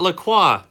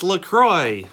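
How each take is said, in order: First: The name ends without rhyming with 'enjoy'. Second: The name ends rhyming with 'enjoy'. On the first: The speaker calls it wrong. "It's not LaCroix. I've been wrong this whole time" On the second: The speaker calls it right. "Turns out it's LaCroix"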